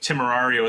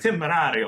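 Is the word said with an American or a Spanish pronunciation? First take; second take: American; Spanish. First: The word is said with an American English pronunciation. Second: The word is said with a Spanish pronunciation. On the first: The speaker calls it wrong. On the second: The speaker calls it right. "is more like Timerario or whatever it is"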